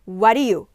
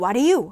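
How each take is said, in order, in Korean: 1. 이 구문은 천천히 그리고 또렷하게 발음됩니다. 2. 이 구문은 빠르게 그리고 이어 붙여서 발음됩니다.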